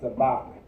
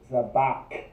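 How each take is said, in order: First: The word ends with a hard k sound. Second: The word ends with a raspy throat sound. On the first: The speaker calls it wrong. "You don't want to pronounce it as a ka" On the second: The speaker calls it right. "You hear that at the end? That's because it's the kha"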